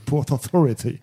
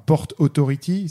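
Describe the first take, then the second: First: It is said with an American accent. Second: It is said with a French accent.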